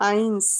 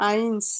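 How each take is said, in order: The two takes are said the same way.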